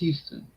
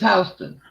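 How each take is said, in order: First: The first syllable sounds like 'hue'. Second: The first syllable sounds like 'house'. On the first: It names the Texas city. "The town is Houston" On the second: It names the New York street. "the street is Houston"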